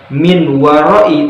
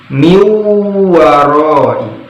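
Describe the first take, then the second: First: A clear n sound comes before the w. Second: The n disappears into a long nasal w. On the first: The speaker calls it wrong. "bukan min waroi" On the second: The speaker calls it right. "nunnya hilang"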